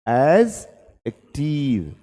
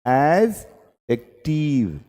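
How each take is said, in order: The two takes are said the same way.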